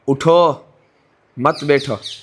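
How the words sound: There is a pause after the first word.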